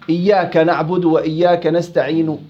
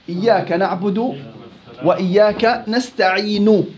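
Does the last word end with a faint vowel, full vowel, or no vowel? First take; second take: faint vowel; full vowel. First: The final consonant ends with a faint partial vowel. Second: The final consonant ends with a full short vowel. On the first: "هاي شبه حركة" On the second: "هاي حركة كاملة"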